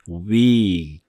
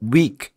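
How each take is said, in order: First: The word is drawn out and lengthened. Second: The word is said short and clipped. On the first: The speaker calls it right. "좀 길게 weak 이런 식으로" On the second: The speaker calls it wrong. "이렇게 짧게 하지 말고"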